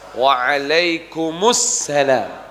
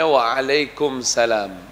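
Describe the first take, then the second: First: It has an added 'u' and a doubled 's'. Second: It goes straight from 'kum' into 'salam'. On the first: The speaker calls it right. "Mustinya waalaikumussalam" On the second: The speaker calls it wrong. "Kalau waalaikumsalam tidak tepat"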